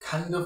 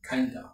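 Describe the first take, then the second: First: Both words are said fully and separately. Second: The words are blended into one reduced word.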